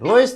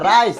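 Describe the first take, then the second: First: The vowel sounds like 'oy', as in 'roice'. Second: The vowel sounds like 'eye', as in 'rice'. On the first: The speaker calls it wrong. "রইস না" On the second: The speaker calls it right. "না রাইস"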